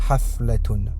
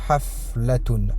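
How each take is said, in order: The two takes are said the same way.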